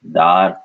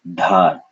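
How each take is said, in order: First: Dar with long a and airless d; no breath on the d of Dar; unaspirated d. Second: Dhar with long a and a puff of air; aspirated dh. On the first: Teacher naming an impaling stake, unaspirated d in Dar. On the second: Teacher giving the word for current, aspirated dh in Dhar. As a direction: breathe out after the d of Dhar. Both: Shown as a demonstration. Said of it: "the power of aspiration".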